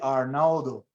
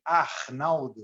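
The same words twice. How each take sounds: First: The R sounds like a plain R. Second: The R sounds like an H. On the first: "we don't say Arnaldo" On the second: "the R in the beginning or in the middle of the word sounds like an H"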